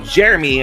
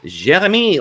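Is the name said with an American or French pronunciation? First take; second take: American; French. First: The name is said with an American pronunciation. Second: The name is said with a French pronunciation.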